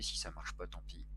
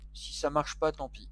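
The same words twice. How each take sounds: First: Low, soft mutter to himself; quiet, low resignation; muttered aside. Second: Raised pitch, tossed off with a shrug; spoken up. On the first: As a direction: say it under your breath, pitched down. First, muttered take of repeated phrase. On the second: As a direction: lift it out of a mutter into full voice. Repeats the same phrase louder. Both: Real, not acted.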